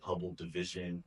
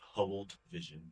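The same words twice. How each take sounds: First: The d sound starts the second word, division. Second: The d sound ends the first word, Hubbled. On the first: The speaker calls it wrong. "people have called it Hubble division" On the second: The speaker calls it right. "but it is Hubble division, one word"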